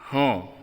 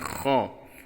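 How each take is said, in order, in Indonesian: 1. Diawali dengan 'h' biasa yang berdesah. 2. Diawali dengan 'kh' yang serak, seperti bunyi dengkuran. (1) "tidak boleh dibaca ho" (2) "harus dibaca dengan kho"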